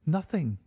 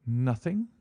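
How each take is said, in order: First: Nothing said with a short falling close; flat answer. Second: Nothing? rising as a question; questioning echo. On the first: Client answers Holmes, Nothing with a final fall. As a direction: drop the pitch at the end of Nothing. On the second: Holmes echoes the client's answer, Nothing rising as a question. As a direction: lift the end of Nothing in disbelief. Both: A narrator's reading.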